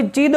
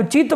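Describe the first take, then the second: First: "चिद" closed on a voiced d. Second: "चित" closed on a dental t. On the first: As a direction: contrast it: "चिद" with d, not t. ("चिद" में अंत का द साफ़) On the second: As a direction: contrast it: "चित" with t, not d. ("चित" में अंत का त साफ़) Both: Shown as a demonstration. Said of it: "चित बोल रहे हो कि चिद".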